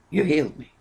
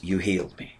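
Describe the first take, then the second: First: Lifted repeat. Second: Soft, lower take of You healed me; quiet quoted line. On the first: Preacher echoing David's healing to the church, raised in wonder. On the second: Preacher quoting David to the congregation, softly awed. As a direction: murmur the words as if in awe. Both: Acted.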